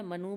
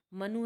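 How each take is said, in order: First: Second मनु said as manoo; मनु with a long "oo" ending; long final U. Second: Said in the usual way. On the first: Shown as a demonstration. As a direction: lengthen the final vowel of मनु. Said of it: "मनु बोल देते हैं". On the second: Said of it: "मनु है".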